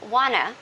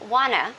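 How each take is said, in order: First: The two words blend into one reduced word. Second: The same.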